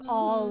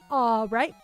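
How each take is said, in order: First: The L sound is clearly pronounced. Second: The L sound is replaced by a W sound. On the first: "Instead of" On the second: "it's a W"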